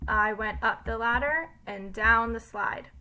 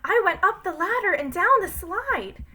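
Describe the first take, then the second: First: It is read in a plain, neutral voice. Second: It is read in an excited voice.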